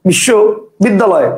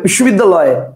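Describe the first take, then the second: First: The word is broken into two separate chunks. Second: The word is said as one unbroken chunk. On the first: "কেউ উচ্চারণ করবে বিশ্ব বিদ্যালয়, কটা হলো? দুইটা।" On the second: "কেউ একবারে বলবে বিশ্ববিদ্যালয়, কটা হলো? একটা।"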